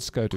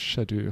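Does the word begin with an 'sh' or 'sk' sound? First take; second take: sk; sh. First: The word begins with an sk sound. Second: The word begins with an sh sound. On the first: The speaker calls it wrong. "not Skadoo" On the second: The speaker calls it right. "It's Shadu"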